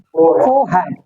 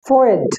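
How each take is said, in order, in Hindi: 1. बीच में 'h' का sound बोला जाता है। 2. बीच में 'h' का साउंड छोड़ दिया जाता है। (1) "ये तरीका ब्रिटिश है प्योर" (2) "इसमें एच का साउंड नहीं आएगा"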